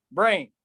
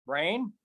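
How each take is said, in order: First: "brain" said with a firm fall. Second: "Brain" softer, rising like a question; soft rising echo. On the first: Poet naming a word, falling. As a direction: drop "brain" down. Echoed word, first take. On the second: Poet questioning the word, soft rise. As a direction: echo "Brain" softly upward. Echoed word, second take. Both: Acted.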